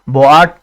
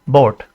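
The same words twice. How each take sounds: First: बोआट broken into two vowels, bo-aat; two-syllable बोआट; wrongly split vowels. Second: बोट as one syllable with a single o; single-syllable, lower बोट; one vowel sound. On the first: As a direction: sound o and a separately in बोआट. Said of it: "बोआट तो नहीं पढ़ते ना". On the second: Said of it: "एक ही ओ की sound निकल रही है". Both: Shown as a demonstration.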